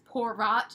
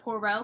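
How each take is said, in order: First: The name is said with an English-style pronunciation. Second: The name is said with a French pronunciation. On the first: The speaker calls it wrong. "I pronounced the main character, the detective's name, as Poirot" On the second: The speaker calls it right. "instead of Poirot because I don't know French or Belgium"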